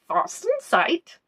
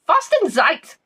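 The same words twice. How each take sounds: First: It is said calmly, as a plain term. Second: It is exclaimed like a swear word.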